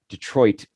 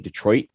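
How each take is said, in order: First: The final T is clearly pronounced. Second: The final T is cut off abruptly. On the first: This is how outsiders say it. "we Detroiters don't say Detroit" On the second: This is how locals say it. "Do a hard throttle stop"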